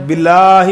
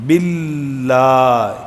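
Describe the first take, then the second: First: باللہ with the لام not doubled, a touch louder; wrong reading. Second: باللہ very slowly drawn out, the لام held doubled; correct recitation. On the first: Teacher showing students the dropped doubling in باللہ. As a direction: sound باللہ as بلا, letting the doubled لام slip. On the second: Teacher demonstrating the correct doubled لام to students. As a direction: stretch باللہ long and hold the doubled لام. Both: Shown as a demonstration. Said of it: "لام کی شد رہ جاتی ہے".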